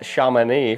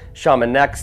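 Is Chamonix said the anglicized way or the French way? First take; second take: French; anglicized. First: Chamonix is said the local French way. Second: Chamonix is said a non-French, anglicized way. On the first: The speaker calls it right. "apparently it's pronounced Chamonix" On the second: The speaker calls it wrong. "I've been pronouncing it Chamonix this whole time"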